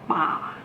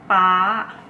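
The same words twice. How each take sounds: First: The pitch stays low throughout. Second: The pitch is high throughout. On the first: Forest. "This is called low tone" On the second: Dad. "high tone"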